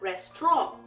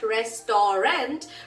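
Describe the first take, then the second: First: The middle is shortened and run together. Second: Every syllable is sounded out in full. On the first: The speaker calls it right. "but you pronounce it as restaurant" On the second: The speaker calls it wrong. "It's not restaurant"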